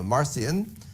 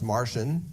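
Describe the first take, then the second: First: The name does not sound like Martian. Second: The name sounds like the word Martian. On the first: The speaker calls it right. "So we say" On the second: The speaker calls it wrong. "sometimes pronounced Martian"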